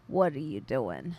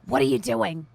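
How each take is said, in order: First: It is said in an old lady's voice. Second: It is not said in an old lady's voice.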